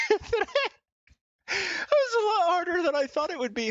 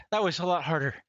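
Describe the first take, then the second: First: Higher, louder breathless exclaim; out of breath after ten burpees, exclaiming; winded exclaim. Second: Said in the usual way. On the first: Real, not acted. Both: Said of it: "I'm out of breath".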